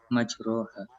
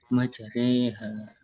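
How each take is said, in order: First: The middle vowel is an open a sound. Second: The middle vowel leans toward an e sound. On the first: "Aslinya kan majroha" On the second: "meringankan bunyi fathah kepada kasroh"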